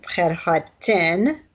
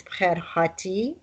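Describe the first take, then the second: First: Bkher hatin said slowly, the final n made clear; plural ending. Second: Bkher hati said slowly, ending on a clear i; singular ending. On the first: Teacher marking the ending used for two or more people. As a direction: linger on the n of hatin. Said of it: "the ending for two people". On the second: Teacher marking the ending used for one person. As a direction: lean on the i of hati. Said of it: "The ending is for one person". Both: Shown as a demonstration.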